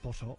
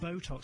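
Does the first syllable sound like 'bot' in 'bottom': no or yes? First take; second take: Yes; No. First: The first syllable sounds like 'bot' in bottom. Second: The first syllable does not sound like 'bot'. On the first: The speaker calls it wrong. "You made it sound like bottom" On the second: The speaker calls it right. "Botox, not Botox"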